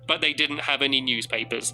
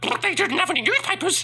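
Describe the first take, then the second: First: It is said in a normal voice. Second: It is said in a silly put-on voice. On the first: It sounds like a boring sentence. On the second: It makes the sentence sound more fun.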